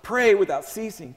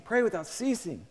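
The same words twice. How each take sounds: First: Said in the usual way. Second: Softer echo. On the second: Shown as a demonstration. Preacher echoing the verse to the congregation, soft and hushed. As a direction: repeat it much softer, almost to yourself.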